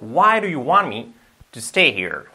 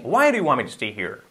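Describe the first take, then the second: First: The sentence is spoken quickly with linked words. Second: The sentence is spoken very quickly and heavily reduced. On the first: "Dicho rápido" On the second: "Dicho muy rápido"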